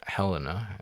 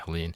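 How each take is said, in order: First: The name ends with an added final vowel. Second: The name ends on a consonant, without a vowel. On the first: This is how the speaker says the name. "I pronounce it Helena" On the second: This is how other people say the name. "other people pronounce it Helene"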